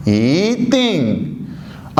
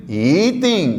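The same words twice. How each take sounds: First: ई तिंग drawn out very slowly, ई rising, तिंग falling; very slow Mandarin yí dìng; slow yí dìng demo. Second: ई तिंग with ई rising, तिंग falling; ई in second tone before तिंग; yí dìng tone demo. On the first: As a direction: stretch ई तिंग out syllable by syllable. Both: Shown as a demonstration. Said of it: "बजाय ई तिंग के क्या बोलूँगा फिर".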